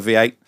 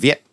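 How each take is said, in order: First: It is said as two separate syllables. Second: It is squeezed into a single syllable.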